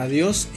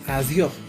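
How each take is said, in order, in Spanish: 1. La s final se pronuncia como s. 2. La s final se aspira como una h. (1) "la palabra adiós" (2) "suele aspirarse la S final de sílaba, usualmente se cambia por una H"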